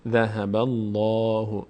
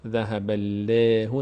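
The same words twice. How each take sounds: First: Slow "ذهب الله" with a dark rounded "lo"; full, heavy Allah. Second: Drawn-out "ذهب الله" with a light, fronted "le"; thin the long vowel of "الله" in "ذهب الله"; wrong thin Allah. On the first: Teacher gives the correct reading, heavy "l". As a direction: fill the mouth on the long vowel of "الله" in "ذهب الله". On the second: Teacher repeats the incorrect reading, thin "l". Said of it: "ذهب الله نمیشه". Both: Shown as a demonstration.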